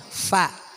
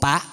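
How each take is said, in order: First: The letter starts with a breathy f sound. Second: The letter starts with a stopped p sound. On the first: The speaker calls it right. "Keluar ada angin" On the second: The speaker calls it wrong. "Kadang sering gara-gara ngomong pak"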